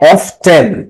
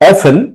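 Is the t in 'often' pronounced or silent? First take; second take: pronounced; silent. First: The t in the middle is pronounced. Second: The t in the middle is silent.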